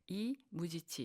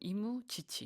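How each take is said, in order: First: A break falls after the first syllable. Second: A break falls after the second syllable. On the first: The speaker calls it right. "이런 어떤 복수형의 음악가의 이름을 이야기를 하고 있고요" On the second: The speaker calls it wrong. "우리는 이무, 지치 이런 식으로 좀 발음들을 많이 하시는데"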